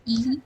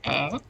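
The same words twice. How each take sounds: First: The vowel is said the English way. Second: The vowel is said the Hebrew way. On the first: This follows the local English pronunciation. The speaker calls it wrong. "and not E" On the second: This follows the name's origin. The speaker calls it right. "the Hebrew Hebrew E is pronounced as E"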